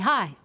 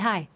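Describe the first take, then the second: First: It is said in a strong, serious way. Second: It is said in a warm, relaxed way.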